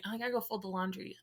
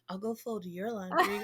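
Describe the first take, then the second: First: Said in the usual way. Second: Imitating husband's suggestive comeback, lean on "your"; mock innuendo. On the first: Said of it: "just the most weirdest thing". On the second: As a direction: turn "your laundry" into a laughing innuendo. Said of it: "dads can turn anything into some sort of innuendo".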